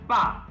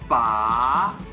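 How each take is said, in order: First: The pitch drops sharply. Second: The pitch rises upward. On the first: "fourth tone, sharp down" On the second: "that would be the second tone"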